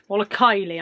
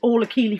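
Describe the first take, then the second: First: The name's first vowel sounds like 'eye'. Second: The name's first vowel sounds like 'ee'. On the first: The speaker calls it right. "Somebody always has to correct my pronunciation" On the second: The speaker calls it wrong. "I always say Keely instead of Kylie"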